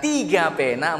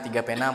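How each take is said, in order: First: It is said with extra emphasis and pitch. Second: It is said in a flat, level voice. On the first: The speaker calls it right. "Sekarang kita kasih variasi. Misalkan di angka tiga, lima, dan tujuh" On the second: The speaker calls it wrong. "Kalau orang yang flat, yang datar, dia ngomong gini"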